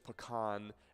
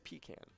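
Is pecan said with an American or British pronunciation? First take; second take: American; British. First: The word has an American pronunciation. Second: The word has a British pronunciation. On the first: "American pronunciation is pecan" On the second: "British pronunciation they say is pecan"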